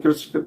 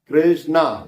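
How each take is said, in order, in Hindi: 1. नाम जल्दी में और छोटा करके बोला गया है। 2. नाम पूरा और साफ़ बोला गया है। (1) "नहीं" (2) "ऐसे करके"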